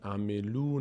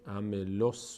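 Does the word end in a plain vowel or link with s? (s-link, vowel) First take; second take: vowel; s-link. First: The word ends in a plain vowel. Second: The word runs straight into an s sound. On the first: The speaker calls it wrong. "عملو نشد" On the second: The speaker calls it right. "عملوس شد چون این لام مستقیم چسبید به صاد"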